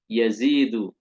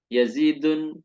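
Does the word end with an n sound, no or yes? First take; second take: no; yes. First: The word ends in a vowel with no n. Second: The word ends with an added n sound. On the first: The speaker calls it right. "tetap tidak boleh bertanwin" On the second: The speaker calls it wrong. "nggak boleh kita membaca"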